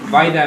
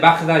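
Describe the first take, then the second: First: The name is said in a foreign-sounding way. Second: The name is said in a Spanish-sounding way. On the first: It shows off knowledge of the original language. "dice Vaida" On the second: It is the usual way people say it. "en vez de Bagda"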